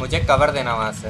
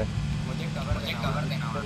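First: Loud call for cover; cover me shout. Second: Said in the usual way. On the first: Real, not acted. Calling teammate for cover.

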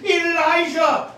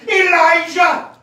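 First: Heavenly call. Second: Slow, louder booming call from above; heavenly call. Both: Acted. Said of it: "a voice out of heaven, calling".

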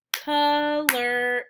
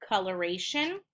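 First: "coloration" in four louder, separated beats; syllable by syllable. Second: Said in the usual way. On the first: Shown as a demonstration. Teacher clapping four syllables, "coloration" split up. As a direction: split "coloration" as col, or, ay, shun. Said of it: "I clap four times". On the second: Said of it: "finding out how many syllables".

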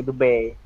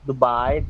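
First: "Dubai" with an ay-sound ending; "Dubai" ending in -bay. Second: "Dubai" with a wide eye-sound ending; "Dubai" ending in -bye. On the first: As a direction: say "Dubai" as doo-BAY, rhyming with "day". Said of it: "they say Dubai". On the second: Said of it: "they don't pronounce Dubai". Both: Shown as a demonstration.

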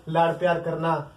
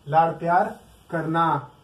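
First: Said in the usual way. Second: Slow on लाड़ प्यार करना, stress on प्यार; slowed, tender emphasis. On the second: Shown as a demonstration. Teacher dwelling on the meaning of cuddle, slow and tender. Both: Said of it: "that is called cuddle".

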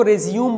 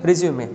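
First: रिज्यूम said as ri-ZYOOM, no final vowel; common mispronunciation. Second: Resume said as REZ-yoo-may; corrected pronunciation. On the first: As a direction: end रिज्यूम on the M. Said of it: "कुछ लोग इसको रिज्यूम बोल देते हैं". (रिज्यूम, आख़िर में बिना 'ए' के) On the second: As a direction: end resume on a clear "may", falling. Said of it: "but actually this is". (resume को 'रिज्यूमे' बोलें) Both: Shown as a demonstration.

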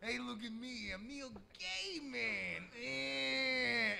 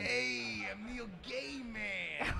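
First: Slow, soft put-on character; lightly voiced joke persona, slowed down; Neil Gaiman character voice. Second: Slow, lightly voiced Neil Gaiman bit; a put-on slow character intro. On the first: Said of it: "He really only has two moves". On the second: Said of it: "his name is, uh, Neil Gaiman".

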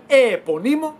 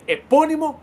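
First: Εεπωνύμο with the stress thrown onto a drawn-out first ε; εεπωνύμο mis-stressed too early, on its first syllable; wrongly stressed word. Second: Said in the usual way. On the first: Shown as a demonstration. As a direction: stretch and hit the opening ε of εεπωνύμο. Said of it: "Δεν λέμε". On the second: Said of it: "Δεν λέμε εεπωνύμο".

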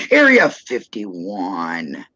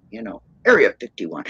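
First: Slow, drawn-out words with a laugh; laughing repeat. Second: Said in the usual way. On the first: Real, not acted. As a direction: stretch it out, chuckling. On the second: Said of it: "uh, what is it".

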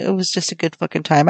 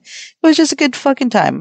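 First: Said in the usual way. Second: High, gushing delight; excited. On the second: Real, not acted. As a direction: rave about a great night. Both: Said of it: "I'm telling you".

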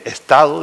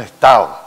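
First: "estado" with its D sounded; full "es-ta-do", ending in DO; standard D. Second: "estado" said as "estao", louder; "estado" ending in a gliding AO; Canarian dropped D. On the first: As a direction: keep the D in "estado". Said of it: "en vez de estado". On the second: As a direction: drop the D of "estado" with emphasis. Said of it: "desaparecemos la D". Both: Shown as a demonstration.

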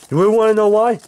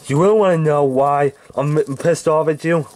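First: Rising angry challenge. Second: Said in the usual way. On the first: Acted. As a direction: push it up into a taunt. Repeats the threat, escalating.

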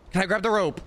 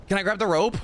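The two takes are said the same way.

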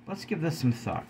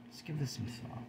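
First: Said in the usual way. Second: Much softer, almost under the breath; hushed repeat. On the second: Shown as a demonstration. Vlogger urging viewers to reflect, hushed and soft. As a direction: let the repeat sink in quietly.

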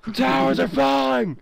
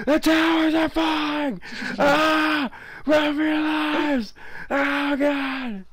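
First: High panicked shout; yelling while running away. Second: High, slow panicked yell; hammed-up disaster-movie screaming; yelling while running away. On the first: Acted. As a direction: scream it like a disaster movie. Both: Towers collapse in game, panic.

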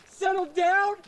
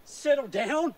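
First: Rising indignation. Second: Said in the usual way. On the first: Acted. Nick, told to settle down, snaps back with rising anger. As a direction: throw "Settle down?" back at him, offended.

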